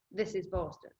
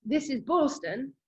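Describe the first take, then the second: First: "this is Boston" said softer, falling away; falling echo. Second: First "This is Boston" lifted up on Boston; rising call. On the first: Runner rounding the Boston corner, quiet falling echo. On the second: Runner rounding the Boston corner, first call rising. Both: Retold or imitated. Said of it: "having that".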